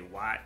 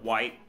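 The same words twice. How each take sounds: First: It is said in a country, hick accent. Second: It is said in a neutral, standard accent.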